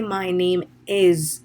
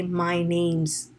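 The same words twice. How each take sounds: First: Slow "My name is", with "is" drawn out; heavily spelled-out "name is", no contraction; uncontracted "name is". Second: "My name's" in two syllables, "is" folded in; contracted "name's". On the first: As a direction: give "is" its own long, separate beat. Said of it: "And do not say". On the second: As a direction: run "name is" into "name's". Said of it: "Use the contraction". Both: Shown as a demonstration.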